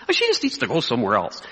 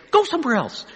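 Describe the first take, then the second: First: Lower, offhand brush-off; casual dismissal. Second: High, punchy mock send-off; bold dismissal. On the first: Retold or imitated. Minister talking about a troublesome church member, casually dismissive. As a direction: shrug off the critic without bother. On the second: Pastor imagining himself telling a critic off, boldly dismissive. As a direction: relish sending the critic away.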